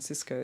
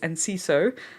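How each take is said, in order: First: The name starts directly with an s sound. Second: The name starts with an 'en' syllable. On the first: The speaker calls it wrong. "I keep calling him Cisco. It's so bad" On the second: The speaker calls it right. "But it's Enciso"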